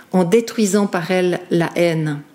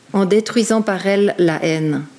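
No difference in how they are said.

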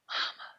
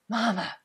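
First: It is whispered very softly. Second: It is said loudly.

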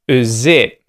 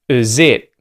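First: The vowel of the first word is a schwa. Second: The vowel of the first word is a schwa.

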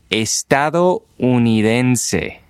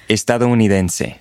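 First: It is said slowly, broken into parts. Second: It is said smoothly, all joined together.

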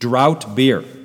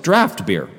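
First: The first word rhymes with out. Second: The first word rhymes with laughed. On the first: The speaker calls it wrong. "it's really not pronounced drought" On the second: The speaker calls it right. "it's draft beer"

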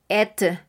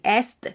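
First: Only the final t is pronounced. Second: Both the s and the t are pronounced. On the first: "no vamos a decir tampoco et" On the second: "No vamos a decir est"

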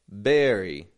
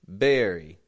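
First: The word begins with a b sound. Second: The same.

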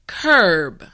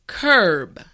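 Both takes have the same delivery.

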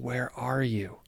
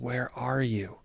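First: It sounds loving and sad. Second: It sounds loving and sad.

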